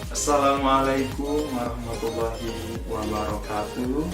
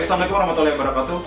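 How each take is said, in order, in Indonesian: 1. Diucapkan sangat lambat. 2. Diucapkan sangat cepat. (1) "Jangan juga sampai terlalu lambat" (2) "nah itu kecepatan banget teman-teman"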